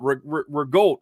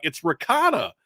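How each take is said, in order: First: Incredulous "rigotta", a bit higher. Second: High, corrective "ricotta", no G. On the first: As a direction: stammer into rigotta with a hard G. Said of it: "my Irish self was like". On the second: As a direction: insist on ricotta with a clear K. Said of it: "I'm like". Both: Retold or imitated.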